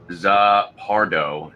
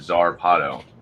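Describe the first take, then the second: First: The r sound comes after the p. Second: The r sound comes before the p. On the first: The speaker calls it wrong. "I kept calling it Zapardo" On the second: The speaker calls it right. "instead of Zarpado"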